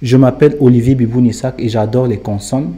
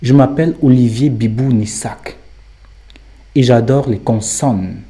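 First: It is said plainly, without marked insistence. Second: Certain words and consonants are heavily insisted upon.

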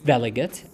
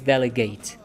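First: The word is pronounced in its noun form. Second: The word is pronounced in its verb form. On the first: A person chosen to decide for a group. "It's delegate as a noun" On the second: To give someone authority to act. "If it's a verb with the same spelling, we pronounce it as delegate"

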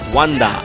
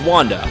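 First: The name is said with a Japanese pronunciation. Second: The name is said with an English pronunciation.

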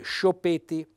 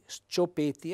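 First: The opening 'sc' is one 'sh' sound. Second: The opening 's' and 'c' are separate sounds. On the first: The speaker calls it wrong. "verrebbe spontaneo leggere scioppeti" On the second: The speaker calls it right. "per far sì che il lettore legga le due lettere separate, S C"

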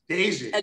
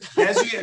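First: The first syllable sounds like 'day'. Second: The first syllable does not sound like 'day'. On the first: The speaker calls it right. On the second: The speaker calls it wrong.

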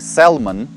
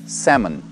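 First: The L sound is pronounced in the word. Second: The L sound is silent in the word. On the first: The speaker calls it wrong. "Это не salmon" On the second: The speaker calls it right. "здесь не читается буква L"

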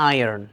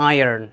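Both takes have the same delivery.

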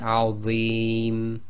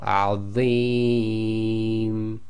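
First: The long vowel is held for two counts. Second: The long vowel is held for four counts.

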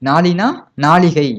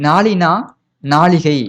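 No difference in how they are said.

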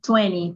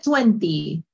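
First: The second T sound is dropped. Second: The second T sound is clearly pronounced. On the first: "te comes la segunda T" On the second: "noto que dijiste 20"

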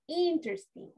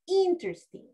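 First: It is pronounced with English-style sounds. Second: The same.

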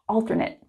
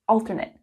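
First: It is pronounced as the adjective form. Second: It is pronounced as the adjective form.

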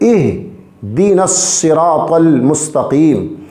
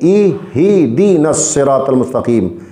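First: No vowel follows the h sound. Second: A short i vowel follows the h sound. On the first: The speaker calls it right. "बल्कि" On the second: The speaker calls it wrong. "हा के नीचे ज़ेर कर देते हैं ... ये गलत है"

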